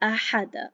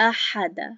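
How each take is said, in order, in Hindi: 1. हर स्वर छोटा रहता है, एक हरकत। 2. हर स्वर छोटा रहता है, एक हरकत।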